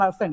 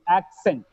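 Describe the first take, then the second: First: The double C sounds like a single s. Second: The double C sounds like k then s. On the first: The speaker calls it wrong. "It's not accent" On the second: The speaker calls it right. "it's accent"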